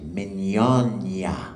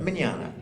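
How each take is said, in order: First: The middle consonant is a palatal 'ny' sound. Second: The middle consonant is a plain 'n' sound. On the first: This is the Italian pronunciation. The speaker calls it right. "The G N makes a nya sound. So you say mignogna. That's the right way to do it" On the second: This is the anglicized everyday pronunciation. The speaker calls it wrong. "I don't say it right"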